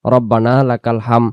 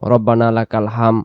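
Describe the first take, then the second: No difference in how they are said.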